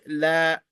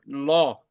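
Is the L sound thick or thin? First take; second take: thin; thick. First: The L is light and thin. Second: The L is dark and thick. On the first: The speaker calls it wrong. "we will not say la" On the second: The speaker calls it right. "We will pronounce the word law"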